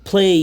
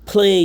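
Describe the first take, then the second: Both takes have the same delivery.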